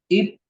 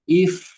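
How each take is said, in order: First: It ends with both lips closing, a p sound. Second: It ends with lip-on-teeth friction, an f sound. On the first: The speaker calls it wrong. "bukan up, ip, up. Tidak menggunakan dua dua bibir" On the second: The speaker calls it right. "badan bibir bawah dengan ujung gigi seri atas"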